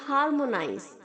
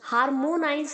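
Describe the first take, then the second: First: The vowel after m sounds like a. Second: The vowel after m sounds like o. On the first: The speaker calls it right. "M के आगे जो ओ है बच्चों, उसे हम ए की तरह साउंड करेंगे" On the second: The speaker calls it wrong. "हार्मोनाइज नहीं बोलेंगे"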